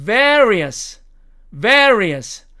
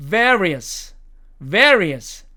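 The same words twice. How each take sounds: First: VARIOUS with a long e before the r; American, lengthened vowel. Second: VARIOUS with a short e before the r; American, no lengthening. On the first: Teacher showing the American lengthened version, VARIOUS with long e. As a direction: stretch the first vowel of VARIOUS. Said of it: "있는 버전". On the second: Teacher showing the American unlengthened version, VARIOUS kept short. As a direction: say VARIOUS without stretching the first vowel. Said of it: "없는 버전". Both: Shown as a demonstration.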